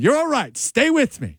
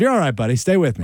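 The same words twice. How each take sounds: First: High, insistent plea; retold, pitched-up emergency reassurance; urgent reassurance. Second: Level, reassuring delivery; calmly steady a frightened man; easy, unforced reassurance. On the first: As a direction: keep a dying man with you. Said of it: "this guy's yelling at me". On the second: Shown as a demonstration. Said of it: "Did you say it in a calm voice?".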